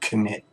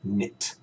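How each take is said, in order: First: A k sound is heard before the n. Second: It starts with n, with no k sound. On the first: The speaker calls it wrong. "We do not pronounce the K, so it's not knit" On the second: The speaker calls it right. "we don't pronounce the K and we use N. So it's knit"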